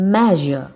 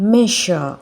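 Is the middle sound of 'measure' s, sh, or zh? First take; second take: zh; sh. First: The middle consonant is a voiced buzzing zh. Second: The middle consonant is a voiceless sh sound. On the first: The speaker calls it right. "you should pronounce the S letter here as Z" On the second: The speaker calls it wrong. "ஷ் sound மெஷர் ... which is wrong"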